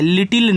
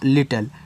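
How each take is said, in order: First: A clear 'i' vowel comes before the final L. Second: No clear vowel comes before the final L. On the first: The speaker calls it wrong. "लिटिल नहीं है" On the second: The speaker calls it right. "ये आपका लिटल होता है"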